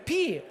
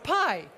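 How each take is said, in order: First: The vowel sounds like the one in 'see'. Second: The vowel sounds like the one in 'eye'. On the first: "the Greek letter P" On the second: "What was the right English pronunciation? Pie?"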